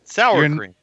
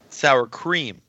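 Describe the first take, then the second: First: The stress falls on the word sour. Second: The stress falls on the word cream. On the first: The speaker calls it wrong. "You're enunciating the wrong thing. It's not the sour that you're putting the emphasis on" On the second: The speaker calls it right. "There you go. Better"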